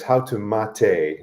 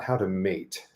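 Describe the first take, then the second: First: Mate is said with two syllables. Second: Mate is said with one syllable. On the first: It names the drink. The speaker calls it right. "the title of the video is" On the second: It means pairing up. The speaker calls it wrong.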